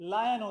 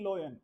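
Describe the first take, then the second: First: The first vowel sounds like 'eye'. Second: The first vowel sounds like 'oy'. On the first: The speaker calls it right. "ये लायन होता है" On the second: The speaker calls it wrong. "ना कि लोयन"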